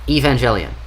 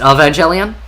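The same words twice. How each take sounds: First: The name begins with an E vowel sound. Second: The name begins with an A vowel sound. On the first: "I thought it was Eve" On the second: "Is it A?"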